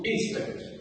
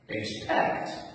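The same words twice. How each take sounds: First: The stress is on the first syllable. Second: The stress is on the second syllable. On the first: The speaker calls it wrong. "not expect" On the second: The speaker calls it right. "we stress this vowel, the, the, the last vowel"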